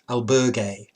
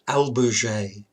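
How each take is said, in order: First: The word is pronounced in a Spanish way. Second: The word is pronounced in a French way. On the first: "The Spanish, I think, is albergue" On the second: "which I think is the French pronunci pronunciation"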